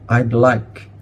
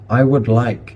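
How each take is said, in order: First: 'I would' is contracted to 'I'd'. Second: 'I would' is said as two full words. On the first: The speaker calls it right. "contract it" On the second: The speaker calls it wrong. "contract it"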